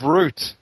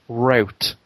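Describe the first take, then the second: First: The word has a British pronunciation. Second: The word has an American pronunciation. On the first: The speaker calls it right. "Instead of route" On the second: The speaker calls it wrong. "The one word that Americans say"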